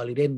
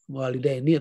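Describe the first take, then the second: First: The word ends on the n without a vowel. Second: The word ends with an added final i vowel. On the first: "Walidaini atau walidain boleh" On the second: "Walidaini atau walidain boleh"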